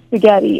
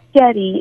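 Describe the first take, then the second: First: The word is said with its full normal sounds. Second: The word is clipped in a childlike baby-talk way. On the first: "instead of spaghetti" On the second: "he sometimes does baby talk"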